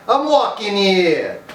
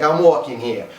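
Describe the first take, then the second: First: Loud, high, drawn-out Brooklyn shout; New York accent. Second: Put-on quicker, unraised quote in Brooklyn accent; New York accent. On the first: Shown as a demonstration. Vlogger acting out a movie cliché, shouted New York accent. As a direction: holler it like an indignant New Yorker. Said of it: "saying that when they're in New York". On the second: Vlogger quoting guys in movies, plainer New York accent. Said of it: "the guy's always like".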